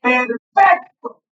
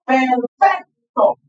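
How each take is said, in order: First: Slow syllable demo. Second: Perfecto drawn out, falling on the end; slow syllable demo. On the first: Teacher to class, showing the stress, slowly sounding out Perfecto. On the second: Teacher to class, repeating the word, slowly dragging Perfecto out. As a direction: slowly sound out Perfecto, stress on fec. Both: Shown as a demonstration. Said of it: "Escuchen cómo la pronuncio".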